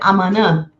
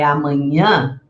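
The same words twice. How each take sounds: First: The middle consonant is a plain n sound. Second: The middle consonant is a palatal ny sound. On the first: The speaker calls it wrong. "não é correto dizer" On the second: The speaker calls it right. "é amanhã"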